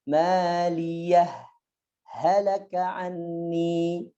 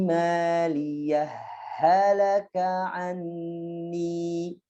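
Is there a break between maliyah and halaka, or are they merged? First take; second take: break; merged. First: A brief stop separates the two h sounds. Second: The two h sounds merge without a stop. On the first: "Jadi bacanya di saktah" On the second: "ketika mewasalkannya ya, maka biasanya diidgham ya"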